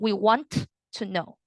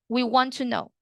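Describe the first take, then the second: First: The T in want is clearly pronounced. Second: The T in want is silent and linked. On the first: The speaker calls it wrong. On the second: The speaker calls it right.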